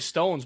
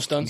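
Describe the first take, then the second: First: The vowel is a long full 'oh' sound. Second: The vowel is a short reduced 'uh' sound. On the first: "It's probably Stones, but you don't say Pistones" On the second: "because like Pistons, they call them the Stuns"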